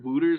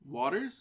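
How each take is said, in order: First: The name is said like 'Wooters'. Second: The name is said like 'Waters'. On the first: "But I've heard Wooters also" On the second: "I believe it's Shane Waters, is how you say it"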